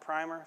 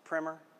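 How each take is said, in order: First: It is said like the word for paint undercoat. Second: It is said unlike the word for paint undercoat. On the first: This is the paint product. The speaker calls it wrong. "It's not primer. If you need primer, go see Sherwin-Williams" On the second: This is the title of the book. The speaker calls it right. "It's primer"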